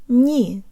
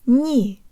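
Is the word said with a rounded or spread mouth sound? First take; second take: rounded; rounded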